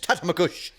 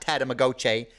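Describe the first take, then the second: First: The name ends with a short 'gush' sound. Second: The name ends with a 'go-shee' sound. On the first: The speaker calls it right. "it's Tatamagush" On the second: The speaker calls it wrong. "it's not Tatamagoche"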